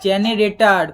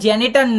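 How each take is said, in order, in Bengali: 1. শব্দটি পুরোটা বলা হয়েছে, 'generator'। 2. শব্দটি তিন উচ্চারণাংশে ছোট করে বলা হয়েছে, 'genetar'। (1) "জেনারেটর মামুনি" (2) "ওটা জেনেটার না"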